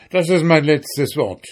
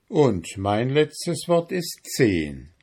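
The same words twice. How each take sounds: First: Mild, raised-pitch shout. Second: Slow, deliberate counter; firm counter-offer. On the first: Miller making his final offer, mildly shouting. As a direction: insist loudly, closing the haggle. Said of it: "schrie der Müller". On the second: Donkey owner countering the miller's final offer, slow and firm. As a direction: answer slowly and immovably. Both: A narrator's reading.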